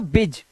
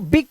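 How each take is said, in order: First: The final consonant is a soft J sound. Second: The final consonant is a hard G sound. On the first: The speaker calls it wrong. "अगर हम यहां पे जा लगा देते तो इसका उच्चारण हो जाता बिज" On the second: The speaker calls it right. "लेकिन इसका उच्चारण तो बिग करते हैं"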